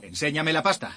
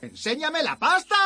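First: It is said at a quieter volume. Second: It is said much louder, shouted.

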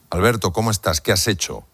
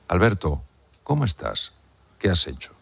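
First: It is said quickly without pauses. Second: It is said with pauses between parts.

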